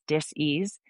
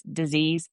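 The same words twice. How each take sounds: First: Dis-ease said as two words, DIS and EASE; split into DIS-EASE. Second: Said in the usual way. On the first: Shown as a demonstration. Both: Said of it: "whenever there's dis-ease".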